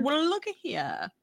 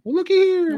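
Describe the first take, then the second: First: Lightly pitched "looky here"; a softer echo of the catchphrase; Carmen Lang impression. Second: High drawn "looky here"; Carmen Lang impression. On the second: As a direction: imitate an old man's catchphrase, pitched up. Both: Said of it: "I can't do it justice".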